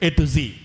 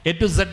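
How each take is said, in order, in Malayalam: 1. Z എന്ന അക്ഷരം zee എന്നാണ് ഉച്ചരിക്കുന്നത്. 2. Z എന്ന അക്ഷരം zed എന്നാണ് ഉച്ചരിക്കുന്നത്. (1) "എന്താ പറയേണ്ടത്?" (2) "എ ടു സെഡ് എന്ന് പറയാൻ പാടില്ല കേട്ടോ"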